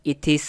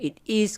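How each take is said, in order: First: "it is" run together as "i-tis"; linked pronunciation. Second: Said in the usual way. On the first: Shown as a demonstration. Teacher showing beginners the joined reading, linked pronunciation. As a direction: carry the t of "it" straight into "is". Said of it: "เป็นอันติดว่า". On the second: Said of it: "รือว่า it is ก็ได้".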